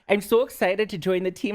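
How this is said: It is said in a Minnesota accent.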